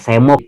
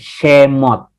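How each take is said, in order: First: The word begins with a plain 's' sound. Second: The word begins with an 'sh' sound. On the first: The speaker calls it wrong. "Bukan semot ya, bukan" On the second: The speaker calls it right. "She, she, Shemot"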